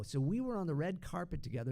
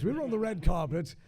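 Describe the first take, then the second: First: Said in the usual way. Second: Louder, posh British delivery; posh British accent. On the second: Shown as a demonstration. Voice double retelling a premiere meeting, loud posh British accent. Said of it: "It sounds very posh".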